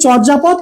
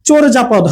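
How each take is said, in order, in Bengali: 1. প্রথম সিলেবলে একটি খোলা 'a' স্বরধ্বনি আছে। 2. প্রথম সিলেবলে একটি 'o' স্বরধ্বনি আছে। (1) "আমরা এটার উচ্চারণ করি চর্যাপদ" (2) "আসলে উচ্চারণটা কি হবে, চোরজাপদ হবে"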